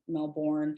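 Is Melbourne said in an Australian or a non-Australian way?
non-Australian. It is said with a non-Australian pronunciation. The speaker calls it wrong. "it would be very embarrassing to all the Aussies here if I were walking around saying Melbourne"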